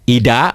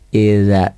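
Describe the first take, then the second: First: The middle consonant is a plain 'd' sound. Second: The middle consonant is a soft 'dh' sound. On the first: The speaker calls it wrong. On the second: The speaker calls it right.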